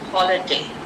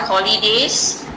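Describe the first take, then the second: First: The stress is on the first syllable. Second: The stress is on a later syllable. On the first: The speaker calls it right. "So the stress is on the first syllable" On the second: The speaker calls it wrong. "Not holidays"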